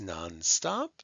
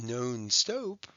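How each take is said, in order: First: The O vowels are short. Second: The O vowels are long. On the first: The speaker calls it right. "and they're short O's" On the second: The speaker calls it wrong. "It's not non-stop, right?"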